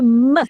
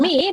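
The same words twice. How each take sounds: First: The vowel is a short uh sound. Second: The vowel is a long ee sound. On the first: The speaker calls it right. "tapi me" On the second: The speaker calls it wrong. "Jadi bukan me"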